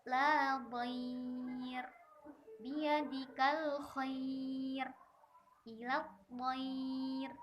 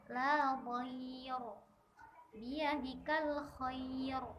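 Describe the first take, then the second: First: La dhair with a light, thin final r; thin r, slow. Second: La dhair with a heavy, thick final r, the wrong way. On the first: Teacher reciting the correct thin r. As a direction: biyadikal khair slowly, thin r at the pause. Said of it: "maka harus dibaca tarqiq". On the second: Teacher demonstrating the forbidden thick r. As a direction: biyadikal khair with a dark r as a mistake. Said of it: "Nah, ini tidak boleh, harus tipis". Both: Shown as a demonstration.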